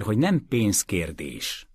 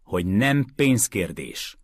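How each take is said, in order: First: Slow, firm, with stress on nem; firm statement. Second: Slow, level, with stress on nem; firm restatement. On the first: Mason states firmly to Calender that it is not about money. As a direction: lay it down flatly, slowly. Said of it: "szögezte le Mason". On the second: Mason repeats to Calender, slow and firm, that it is not about money. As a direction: set it down again, unmoved. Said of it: "szögezte le újólag Mason". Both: A narrator's reading.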